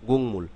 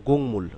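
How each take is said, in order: Both takes have the same delivery.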